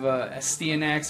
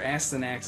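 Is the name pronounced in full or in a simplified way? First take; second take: full; simplified. First: The name is pronounced in full. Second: The name is pronounced in a simplified way.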